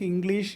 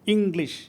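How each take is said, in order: First: The second syllable has a long vowel. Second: The second syllable has a short vowel. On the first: "ദീർഘത്തിലല്ലേ ഉച്ചരിക്കാൻ പറ്റുള്ളൂ" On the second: "ഹ്രസ്വ"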